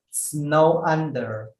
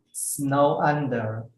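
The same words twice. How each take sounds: The two takes are said the same way.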